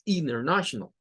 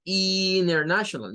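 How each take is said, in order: First: International with a short i; teacher model of international; right way. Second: International with a wrong vowel; mispronounced international. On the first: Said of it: "no, es international". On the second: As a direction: international as a learner mistake. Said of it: "No es como international". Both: Shown as a demonstration.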